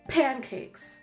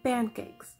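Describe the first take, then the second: First: The first p has a puff of air. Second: The first p has no puff of air. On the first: "instead of saying like pancakes" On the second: "if you want to get rid of that aspiration"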